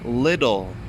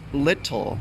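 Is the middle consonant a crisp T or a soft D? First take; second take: soft D; crisp T. First: The middle consonant is a soft D sound. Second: The middle consonant is a crisp T sound. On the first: The speaker calls it right. "The T makes a D sound" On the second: The speaker calls it wrong. "not little"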